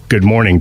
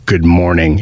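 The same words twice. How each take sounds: First: Said in the usual way. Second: A grumpy, lower good morning; "Good morning" said grumpy and a bit lower; cranky good morning. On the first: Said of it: "it goes from like this". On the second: Shown as a demonstration. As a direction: mutter "Good morning" like a man who can't have his donuts. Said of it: "It's slightly different".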